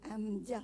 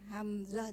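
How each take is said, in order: First: The middle consonant is an s sound. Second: The middle consonant is a z sound. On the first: This is how some Indonesians say it. "orang-orang Indonesia pun kadang dia sebut" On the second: This is the standard pronunciation. "Z tu"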